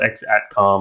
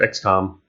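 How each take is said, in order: First: The word 'at' is pronounced in the name. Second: The word 'at' is left silent in the name.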